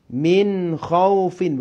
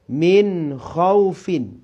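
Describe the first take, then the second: The two takes are said the same way.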